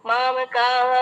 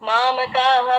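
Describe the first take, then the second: Both takes have the same delivery.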